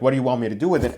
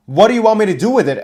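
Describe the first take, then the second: First: Said in the usual way. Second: Higher, louder and fast, a baffled referee; confused in-character plea. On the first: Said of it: "I raised the share up, like". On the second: Retold or imitated. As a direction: blurt it out, bewildered, to the wrestlers. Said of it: "I tried to ask them in character".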